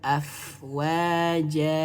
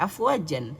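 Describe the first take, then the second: First: The word ends with a lengthened vowel. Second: The word ends with an n sound. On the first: The reader stops at the end of the verse. "karena waqaf, karena akhir ayat, maka dibaca afwaja, dua harokat" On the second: This is the full form, used without a pause. "meskipun ini bacanya afwajan"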